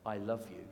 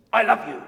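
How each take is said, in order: First: Said in the usual way. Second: "I love you" flung out loud, like a telling-off; stern I love you. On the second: Shown as a demonstration. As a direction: bark "I love you" so it sounds like a scolding. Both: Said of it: "she doesn't hear, "I love you".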